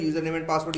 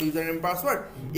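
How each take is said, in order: First: Said in the usual way. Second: 'user name and password' repeated slowly and clearly; slow, careful repeat. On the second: Shown as a demonstration. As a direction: stretch out 'user name and password' for note-taking. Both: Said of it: "password बोलते हैं ना".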